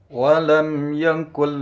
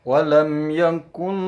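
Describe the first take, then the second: Both takes have the same delivery.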